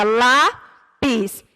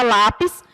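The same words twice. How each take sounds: First: "lápis" bem devagar, com pausa entre "lá" e "pis"; separado em sílabas. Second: Said in the usual way. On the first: Shown as a demonstration. ("lápis" dito sílaba por sílaba, pausadamente) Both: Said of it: "que a gente separa".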